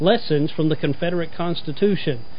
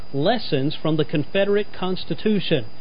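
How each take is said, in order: No difference in how they are said.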